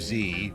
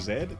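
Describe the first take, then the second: First: The letter is pronounced 'zee'. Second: The letter is pronounced 'zed'. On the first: The speaker calls it right. "That's how you say that letter" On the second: The speaker calls it wrong. "Oh, sorry, I mean Z"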